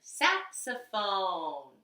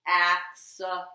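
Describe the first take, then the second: First: "Saxophone" very slow, falling at the end; very slow demo. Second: "Saxophone" drawn out slowly and loud; slow, loud word demo. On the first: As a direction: sound out "Saxophone" very slowly. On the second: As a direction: stretch "Saxophone" for the class. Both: Shown as a demonstration.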